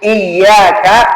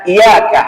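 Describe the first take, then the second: First: The y sound is doubled and held. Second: The y sound is short and single. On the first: The speaker calls it right. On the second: The speaker calls it wrong.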